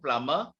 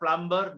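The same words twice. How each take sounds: First: The b after the m is silent. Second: A b sound is pronounced after the m. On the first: The speaker calls it right. "we don't pronounce the B" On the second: The speaker calls it wrong.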